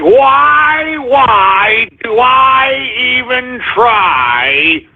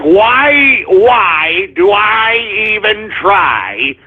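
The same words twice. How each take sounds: First: High, slow despairing sigh; exaggerated hopeless whine; drawn-out weary lament. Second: Weary lament. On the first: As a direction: stretch it out like giving up. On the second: Retold or imitated. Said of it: "sometimes I'm like".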